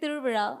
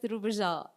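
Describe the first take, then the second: First: The middle consonant is the retroflex Tamil sound. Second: The middle consonant is a plain 'j'-like sound. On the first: This is the native Tamil pronunciation. The speaker calls it right. "I can say the Tamil words the way it's supposed to be said" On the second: This is how a reader would guess it from the spelling. The speaker calls it wrong. "You'll read it as Tiruvija"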